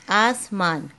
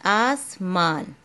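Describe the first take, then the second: First: Said in the usual way. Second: आसमान drawn out very slowly, each sound held; teacher sounding out आसमान slowly; slow syllable by syllable. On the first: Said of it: "ठीक है बेटा". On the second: Shown as a demonstration. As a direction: stretch आसमान out for the child to follow. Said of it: "मैंने आपको बताया था".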